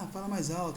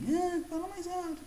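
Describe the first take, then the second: First: It is said in a normal voice. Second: It is said in a high-pitched voice.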